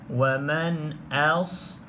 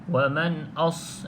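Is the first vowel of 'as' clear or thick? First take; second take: clear; thick. First: The vowel is a clear, thin 'a'. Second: The vowel is thick and sounds like 'o'. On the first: The speaker calls it right. "Maka perlu jelaskan A" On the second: The speaker calls it wrong. "huruf A ni ditebalkan menjadi O ... itu hamzah tebal"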